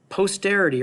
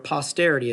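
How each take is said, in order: First: The first syllable sounds like the word post. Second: The first syllable sounds like poss, not post.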